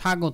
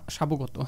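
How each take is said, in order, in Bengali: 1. শব্দে কোনো b ধ্বনি শোনা যায় না। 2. শব্দে b ধ্বনি শোনা যায়।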